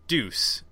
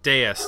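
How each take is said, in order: First: The name sounds like the word deuce. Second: The name sounds like Deus in Deus ex machina. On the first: "I'm going to say it's deuce" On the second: "like dEUS Machina"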